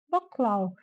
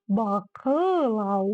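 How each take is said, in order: First: The vowel after 'bak' is nearly silent. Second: The vowel after 'bak' is fully pronounced. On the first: This is how it sounds in Kazakh. The speaker calls it right. "в казахском языке ее практически нет, лишь намек на ее существование" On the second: This is how it would sound in Russian. The speaker calls it wrong. "где она бы звучала как полноценная буква"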